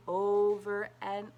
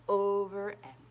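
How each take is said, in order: Both takes have the same delivery.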